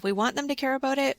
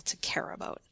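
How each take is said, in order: First: Lifted and loud to make them care; louder, faster. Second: Whispered, barely there. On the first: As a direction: say it louder, much higher and fast. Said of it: "we usually say it louder". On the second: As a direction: drop to a whisper. Demo of caring about words. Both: Shown as a demonstration.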